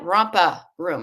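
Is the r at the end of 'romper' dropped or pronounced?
dropped. The r sound in 'romper' is dropped. "That's my Boston accent in full force"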